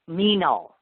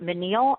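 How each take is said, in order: First: The first syllable sounds like 'mean'. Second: The first syllable does not sound like 'mean'. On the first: The speaker calls it right. "almost like mean but not mean" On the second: The speaker calls it wrong. "I don't know how to say your name"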